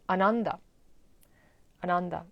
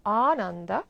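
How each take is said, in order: First: ANANDA as uh-NUN-duh, quick short first A; unstretched first syllable on "Ananda"; wrong short A. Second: ANANDA with long, open first A; stretched opening vowel on "Ananda". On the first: Retold or imitated. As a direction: imitate the mistaken "Ananda" with a clipped opening vowel. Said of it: "but that is wrong". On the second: Shown as a demonstration. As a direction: open the jaw on "Ananda": AA-nun-duh. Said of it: "important how we pronounce".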